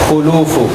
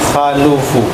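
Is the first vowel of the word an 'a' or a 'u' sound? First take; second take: u; a. First: The first vowel is a 'u' sound. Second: The first vowel is an 'a' sound. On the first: The speaker calls it right. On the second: The speaker calls it wrong.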